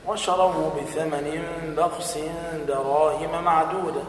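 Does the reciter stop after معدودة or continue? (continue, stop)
stop. The recitation stops after معدودة, then restarts. "ثم تقول دراهم معدودة وكانوا فيه من الزاهدين"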